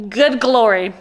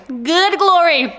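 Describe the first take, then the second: First: Said in the usual way. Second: Excited. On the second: Real, not acted.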